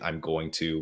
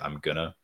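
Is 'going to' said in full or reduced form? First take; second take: full; reduced. First: Going to is said in full. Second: Going to is reduced to gonna. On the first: "instead of saying" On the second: "we might say"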